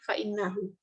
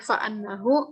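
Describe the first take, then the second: First: The vowel after fa' is an 'i'. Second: The vowel after fa' is an 'a'. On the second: "boleh memfathah"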